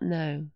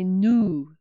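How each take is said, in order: First: The vowel sounds like 'oh'. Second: The vowel sounds like 'oo'. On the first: The speaker calls it wrong. "not no" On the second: The speaker calls it right. "we need to say nu"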